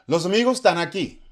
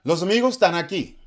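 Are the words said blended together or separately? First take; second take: blended; blended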